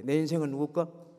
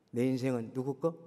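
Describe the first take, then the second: First: Louder, fuller call to the congregation; the question repeated much louder. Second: Said in the usual way. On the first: Shown as a demonstration. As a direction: say it again, bigger and louder. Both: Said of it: "좀 더 크게".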